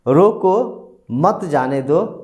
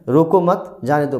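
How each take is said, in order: First: There is a pause after रोको. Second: There is a pause after मत.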